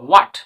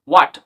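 Both takes have the same delivery.

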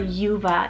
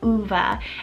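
First: The name begins with a 'yoo' sound. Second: The name begins with a plain 'oo' vowel. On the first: This is an English-style pronunciation. "for an English pronunciation" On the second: This is the original Spanish pronunciation. "It's very short with the U at the beginning"

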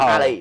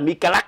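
First: The name is said with an h sound. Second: The name is said with k sounds. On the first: The speaker calls it right. "nhưng mà đọc là Mahaley" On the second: The speaker calls it wrong. "viết là Mikalak"

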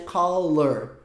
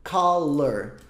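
The two takes are said the same way.

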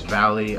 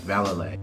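First: The name sounds just like the word valley. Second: The name does not sound like the word valley. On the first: The speaker calls it wrong. "I thought it was Valley" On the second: The speaker calls it right. "The way he says it is Vallely"

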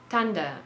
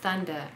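First: The first sound is not a 'th' sound. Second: The first sound is a 'th' sound. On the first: The speaker calls it wrong. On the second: The speaker calls it right.

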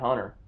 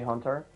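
First: The middle t sound is dropped. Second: The middle t sound is clearly pronounced. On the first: "I always say Hunter" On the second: "I'm kind of forcing myself to do that T"

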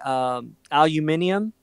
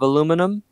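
First: The word is said the British way. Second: The word is said the American way.

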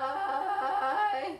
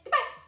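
First: It is said slowly. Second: It is said fast.

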